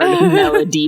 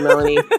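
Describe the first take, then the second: First: The middle consonant is a clear hard D. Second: The middle consonant sounds like an N. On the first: The speaker calls it right. "Pronounce the D hard" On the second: The speaker calls it wrong. "that sounded like Melanie"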